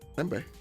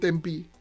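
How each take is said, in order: First: The word ends with an 'eh' vowel. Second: The word ends with an 'ee' vowel. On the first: This is the Indonesian reading of the word. "kalau di Indonesia dibaca tempe" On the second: This is how English speakers read it without the H. "Kalau hanya dihilangin, itu bacanya tempi"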